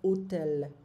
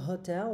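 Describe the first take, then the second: First: The word begins directly with the vowel sound. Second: The word begins with an audible h sound. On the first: The speaker calls it right. "le H n'est pas prononcé en italien" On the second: The speaker calls it wrong. "on ne va pas dire hotel"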